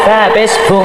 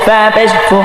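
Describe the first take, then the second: No difference in how they are said.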